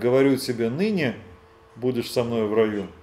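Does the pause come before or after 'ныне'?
after. The pause comes after 'ныне'.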